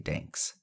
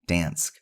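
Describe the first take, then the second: First: The word ends with a 'ks' sound. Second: The word ends with an 'sk' sound. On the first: The speaker calls it wrong. "Not Danks" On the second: The speaker calls it right.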